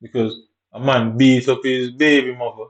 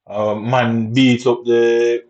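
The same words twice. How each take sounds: First: Said in the usual way. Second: Slow emphatic repeat. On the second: Shown as a demonstration.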